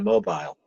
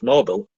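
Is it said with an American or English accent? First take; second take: English; American. First: It is said with an English accent. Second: It is said with an American accent.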